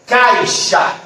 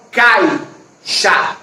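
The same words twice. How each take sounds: First: Said in the usual way. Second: "caixa" broken in two, cai, pause, xa; split syllables. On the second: Shown as a demonstration. Teacher showing the diphthong holds together, "caixa" split as cai... xa. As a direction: say "caixa" slowly with a clear gap between cai and xa. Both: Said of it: "não é pronunciado de uma só vez".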